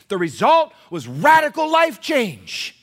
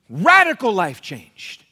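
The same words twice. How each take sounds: First: Slow, loud, each word driven home; emphatic point. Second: Slow, loud, RADICAL hit hardest; emphatic repeat. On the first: Preacher driving home his main point, slow and loud. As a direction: hammer the point. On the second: Preacher repeating his point, slow and loud. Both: Real, not acted.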